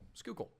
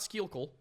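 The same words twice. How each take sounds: First: The name is said in a shortened form. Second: The name is sounded out as it is spelled. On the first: The speaker calls it right. "It is pronounced Schuylkill" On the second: The speaker calls it wrong. "Not Schuylkill"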